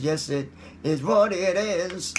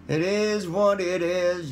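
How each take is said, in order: First: Said in the usual way. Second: Put-on hillbilly accent. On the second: Goofy voice repeat.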